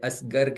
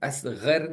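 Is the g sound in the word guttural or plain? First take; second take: plain; guttural. First: The g sound is a plain hard stop. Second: The g sound is a throaty guttural fricative. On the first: The speaker calls it wrong. "असगर कहते हैं" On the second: The speaker calls it right. "असगर नहीं कह पाते"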